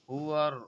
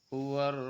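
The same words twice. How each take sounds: No difference in how they are said.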